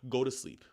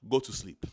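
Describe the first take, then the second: First: It is said in the speaker's normal accent. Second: It is said in a put-on foreign accent.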